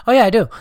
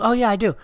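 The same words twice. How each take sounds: First: High, loud casual reply; high breezy mock of a friend; imitating Ari. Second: High, lighter casual reply; imitating Ari again. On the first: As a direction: chirp it without missing a beat. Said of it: "he goes". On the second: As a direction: toss it off offhand. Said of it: "He goes".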